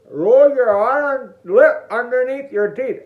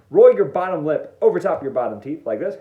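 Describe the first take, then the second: First: Higher, louder, garbled by a tucked-in lip; slow, mouth-distorted demonstration speech; lip rolled in. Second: Said in the usual way. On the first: Shown as a demonstration. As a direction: talk with your lip over your teeth. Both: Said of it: "Again, for those who can't understand".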